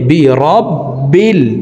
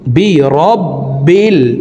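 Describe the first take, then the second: The two takes are said the same way.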